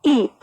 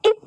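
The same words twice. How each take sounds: First: ई held long; drawn-out long vowel. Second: ई said short and quickly; quick short vowel. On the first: Teacher showing pupils the long vowel, ई drawn out. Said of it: "खींच कर बोलते हैं". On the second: Teacher demonstrating the short vowel to pupils, ई said quickly. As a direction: make ई a brief, quick vowel. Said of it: "इसका जल्दी उच्चारण होगा". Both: Shown as a demonstration.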